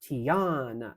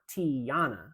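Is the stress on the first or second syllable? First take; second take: second; first. First: The stress is on the second syllable. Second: The stress is on the first syllable. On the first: The speaker calls it right. "the emphasis in the word is on the on and the uh" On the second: The speaker calls it wrong. "it's not Tiana"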